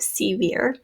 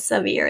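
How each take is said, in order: First: "severe" starting with a full "see"; long E in both syllables of "severe". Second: "severe" starting with a relaxed "suh"; unstressed schwa in the first syllable of "severe". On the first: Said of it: "instead of severe". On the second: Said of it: "this E has become a schwa". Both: Shown as a demonstration.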